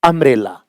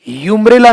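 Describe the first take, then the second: First: The word begins with a short 'uh' vowel. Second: The word begins with a 'y' sound. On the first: The speaker calls it right. "अ" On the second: The speaker calls it wrong. "यूम्ब्रेला नहीं"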